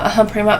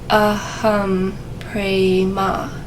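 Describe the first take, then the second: First: The phrase is said quickly and hurriedly. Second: The phrase is said slowly and calmly. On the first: The speaker is feeling anxious or stressed. "is to say it really quickly" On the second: The mind is calming down. "start to slow yourself down"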